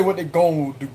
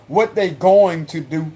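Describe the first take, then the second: First: "gonna" run together as "gon"; "gonna" shortened to "gon"; Cajun "gonna". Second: Slow, careful "going to"; unhurried, fully sounded "going to"; fully pronounced "going". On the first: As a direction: swallow "gonna" into one Cajun syllable. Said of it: "I say". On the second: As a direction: spell out "going to" as two full words. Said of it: "I don't say "gone". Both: Shown as a demonstration.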